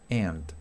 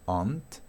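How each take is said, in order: First: It is said in an American English accent. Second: It is said in a British English accent.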